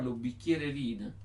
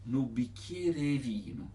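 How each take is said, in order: First: ヌビキエレリーノ in standard Italian, E kept clear; standard pronunciation. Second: ヌビキエレリーノ with the southern dialect vowels, E swallowed; dialect pronunciation. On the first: Teacher contrasting standard ヌビキエレリーノ with the dialect. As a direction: keep the E in ヌビキエレリーノ clear and full. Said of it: "普通は". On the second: Teacher demonstrating the southern dialect ヌビキエレリーノ. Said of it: "マッジョベウト". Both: Shown as a demonstration.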